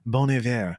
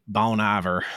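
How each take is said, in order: First: The name is said in a standard accent. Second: The name is said in a Southern accent. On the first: The speaker calls it right. "is actually" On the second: The speaker calls it wrong. "when my Southern comes out"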